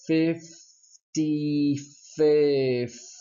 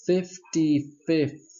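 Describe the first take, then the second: First: Fifty-fifth drawn out slowly, the final th sounded. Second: Fifty-fifth slow and higher, th at the end. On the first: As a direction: stretch Fifty-fifth and finish on th. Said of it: "Here we go". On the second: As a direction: say fifty-fifth slowly, pronounce the th. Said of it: "once again". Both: Shown as a demonstration.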